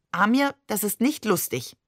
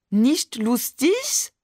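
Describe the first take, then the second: First: Said in the usual way. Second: Slow, higher mock French accent; exaggerated French accent. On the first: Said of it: "Mamans französischen Akzent". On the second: A narrator's reading. Barbe aping Maman teasingly, exaggerated French accent. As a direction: mimic a French accent, drawing it out upward. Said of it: "ahmte Barbe übertrieben Mamans französischen Akzent nach".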